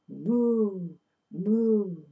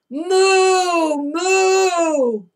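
First: It is said softly. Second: It is said loudly.

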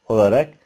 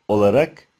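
No difference in how they are said.

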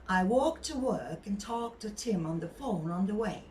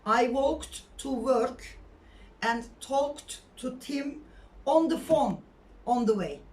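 First: The words are linked smoothly in connected speech. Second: Each word is pronounced separately and stiffly. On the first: The speaker calls it right. "Böyle söyleyeceğiz bunu" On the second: The speaker calls it wrong. "Şöyle değil yani"

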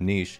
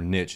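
First: The word is said with a non-American pronunciation. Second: The word is said with an American pronunciation. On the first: "instead of" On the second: "American English is mostly ... saying"

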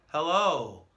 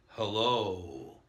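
First: The voice is tight and pushed from the throat. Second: The voice is full and supported from the diaphragm.

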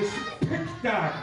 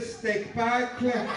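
First: The word sounds like 'spectacle'. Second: The word sounds like 'steak packle'. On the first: The speaker calls it right. "Ah, le spectacle, d'accord" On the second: The speaker calls it wrong. "C'est pas comme ça qu'on dit"

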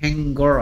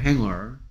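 First: A hard g sound follows the ng. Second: No hard g sound follows the ng. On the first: The speaker calls it wrong. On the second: The speaker calls it right.

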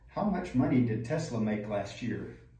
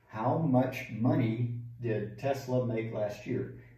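First: The sentence is spoken at a natural, flowing pace. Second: The sentence is spoken slowly and carefully.

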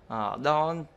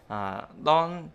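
The two takes are said the same way.

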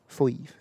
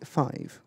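First: Said with a broad West Country vowel. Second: Said with a standard English vowel. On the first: This is how locals say it. "down Yeovil way, mate, ... We say five" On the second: This is how people elsewhere say it. "we don't say five"

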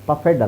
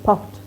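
First: The ending is said as a separate 'ed' syllable. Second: The ending is a short 't' with no extra syllable. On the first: The speaker calls it wrong. "ಪಫೆಡ್ ಅಲ್ಲ" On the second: The speaker calls it right. "So ಇದು ಪಫ್ಡ್"

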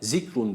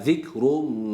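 First: The first consonant is a sharp 'z' sound. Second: The first consonant is a lisped, th-like sound. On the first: The speaker calls it wrong. "zikrun değil bu" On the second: The speaker calls it right. "peltek olan Z harfi var burada"

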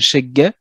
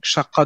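First: The middle consonant is a hard g sound. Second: The middle consonant is a deep q sound. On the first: "certains la prononcent comme un gue" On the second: "du qa"

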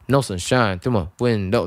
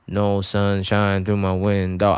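First: It is said with shifted stresses and playful timing. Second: It is said flat with even, standard rhythm. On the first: The speaker calls it right. "поиграться с таймингом" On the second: The speaker calls it wrong. "чтобы это не было"

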